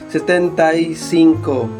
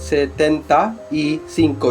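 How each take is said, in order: First: The 'y' is joined smoothly to the preceding word. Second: The 'y' is separated from the preceding word. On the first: The speaker calls it right. "the usual pronunciation is just direct and immediate" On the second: The speaker calls it wrong. "you don't say it"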